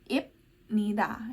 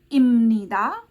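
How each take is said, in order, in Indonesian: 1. Konsonan sebelum 'nida' itu bunyi p. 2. Konsonan sebelum 'nida' itu bunyi m. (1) "bukan dibaca B atau P" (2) "dibacanya miem ya"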